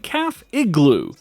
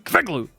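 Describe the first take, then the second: First: The phrase is said at a normal speed. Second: The phrase is said very fast.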